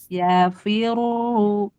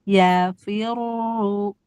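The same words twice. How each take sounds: Both takes have the same delivery.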